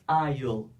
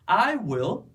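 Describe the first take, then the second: First: Will is shortened and joined into one syllable. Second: Will is said as a separate full word. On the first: "você vai pronunciar uma só" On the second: "ao invés de duas sílabas"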